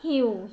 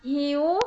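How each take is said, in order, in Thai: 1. เสียงต่ำและคงที่ 2. เสียงขึ้นจากต่ำไปสูง (1) "เสียงเอก" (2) "เสียงจัตวา"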